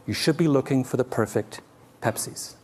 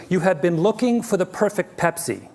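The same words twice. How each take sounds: First: Softened, with Pepsis set apart; pause before Pepsis. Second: Raised pitch through perfect Pepsi; proclaimed perfect Pepsi. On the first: Howard correcting conference audiences, pausing before the plural Pepsis. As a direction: drop the volume and land Pepsis as revelation. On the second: Howard addressing food conferences, proclaiming perfect Pepsi as the mistake. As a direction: declare perfect Pepsi high, like a conference speaker. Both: Retold or imitated.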